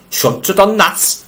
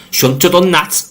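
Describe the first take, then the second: First: Higher, slower imitation in a Yorkshire accent; quoting a film actor's Yorkshire accent line, pitched up and drawn out; Peter Cushing Yorkshire accent. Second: Said in the usual way. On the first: Host mimics a film actor's Yorkshire line, higher and slower. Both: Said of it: "he says that in a Yorkshire accent".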